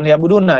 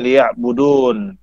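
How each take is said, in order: First: The word ends with a short -na syllable. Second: The word ends on a bare n sound. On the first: "bukan liya'buduna ya"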